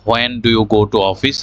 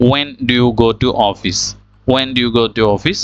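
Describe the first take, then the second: First: "when" said "ho-en", h sounded; wrong pronunciation. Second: "when" said "wen", no h, slowly; slow question opening "when" on plain w; correct pronunciation. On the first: Teacher reads the question the mistaken way, "when" with an h. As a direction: example question with "when" as "hwen". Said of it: "আমরা এখানে ভুল উচ্চারণ করেছি". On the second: Teacher models the correct question twice, "when" as "wen". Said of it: "এখানে এইচটা বাদ পড়ে গেল". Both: Shown as a demonstration.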